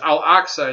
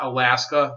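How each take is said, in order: First: The middle has a 'ks' sound, like 'Al-Aqsa'. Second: The middle has an 'sk' sound, like 'Alaska'. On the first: The speaker calls it right. "It's Al Aqsa" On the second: The speaker calls it wrong. "It's not Alaska"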